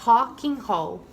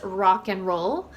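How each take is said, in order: First: It is said Brazilian style, the R like H. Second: It is said with an American English R sound. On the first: "they pronounce the R as an H sound" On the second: "we would pronounce this obviously as rock and roll"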